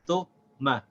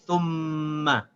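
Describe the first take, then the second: First: The m sound is short and single. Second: The m sound is held and doubled. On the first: The speaker calls it wrong. "I did not connect the Tha with the Meme" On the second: The speaker calls it right. "without stopping the sound of the Meme"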